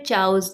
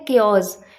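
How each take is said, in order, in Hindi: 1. यह 'ch' से शुरू होता है और 'chows' जैसा बोला जाता है। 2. यह 'k' की आवाज़ से शुरू होता है, जैसे 'kay-os'। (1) "या फिर चाउस, जो भी बोलते हैं गलत ही बोलते हैं" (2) "करेक्ट प्रोनाउंसिएशन इसकी होती है केओस"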